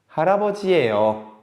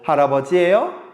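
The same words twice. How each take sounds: First: The voice falls at the end. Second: The voice rises at the end.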